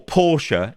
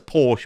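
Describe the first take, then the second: First: The name is said in a posh, fancy way. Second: The name is said in a plain, common way. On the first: The speaker is being posh. "if you want to be fancy" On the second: The speaker is being ordinary. "I'm common, so it's a Porsche"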